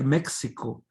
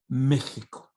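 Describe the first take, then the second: First: The x is said as a ks sound. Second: The x is said as a breathy h. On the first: This is how the spelling looks. "it looks like Mexico" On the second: This is the real Spanish pronunciation. "in Spanish it's pronounced Mexico"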